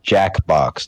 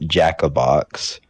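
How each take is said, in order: First: The name is said with two syllables. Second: The name is said with three syllables. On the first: The speaker calls it right. "it's Jackbox" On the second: The speaker calls it wrong. "not Jackabox"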